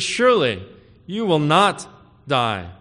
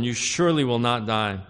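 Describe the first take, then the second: First: SURELY and NOT punched hard and loud; louder, every word of "Surely you will not die" driven home; emphatic denial. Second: Said in the usual way. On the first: Shown as a demonstration. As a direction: hammer "Surely" and "not" as the serpent. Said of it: "that emphasis". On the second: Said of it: "didn't forget to add that certainty, that emphasis".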